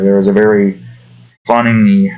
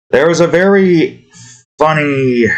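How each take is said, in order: First: Said in the usual way. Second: High, lilting restart on "very funny"; higher-pitched retake. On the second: Shown as a demonstration. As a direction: pitch the phrase up high, falling at the end. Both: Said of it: "the wrong one".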